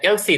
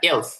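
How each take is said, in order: First: The word ends with an added vowel sound. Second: The word ends on the s sound. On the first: The speaker calls it wrong. "এটা এলসি না" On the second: The speaker calls it right.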